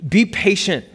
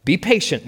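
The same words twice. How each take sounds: First: A short, curt mock snap at the child; mild snap. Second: A mother's firm but restrained telling-off; mild scolding. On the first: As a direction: cut her off sharply but lightly. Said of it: "Maya snapped at her daughter". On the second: Acted. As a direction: scold the child, but don't raise it much. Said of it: "she scolded her eight-year-old".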